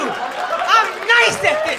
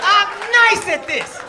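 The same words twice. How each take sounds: First: "nice" drawn out slowly, tune rising at the end; slow rising brag. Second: "nice" stressed, tune falling at the end, laughing; laughing falling brag. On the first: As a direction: stretch "nice" and lift the ending. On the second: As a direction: drop the ending with a laugh. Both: Real, not acted.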